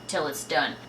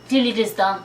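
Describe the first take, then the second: First: It is said in her own plain accent. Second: It is said in a put-on French accent.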